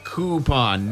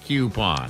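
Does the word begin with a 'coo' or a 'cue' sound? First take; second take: coo; cue. First: The word begins with a plain 'coo' sound. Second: The word begins with a 'cue' sound. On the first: The speaker calls it right. "It's definitely coup" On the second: The speaker calls it wrong. "not coupon"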